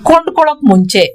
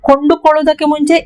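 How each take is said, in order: First: The first word is said in a shortened form. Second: The first word is said in its full form. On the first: This is the everyday spoken way to say it. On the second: This is the formal way to say it.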